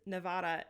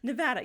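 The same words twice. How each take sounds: First: It is said the Spanish way. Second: It is said the local English way. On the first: "I think it is Nevada in Spanish" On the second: "Say it right"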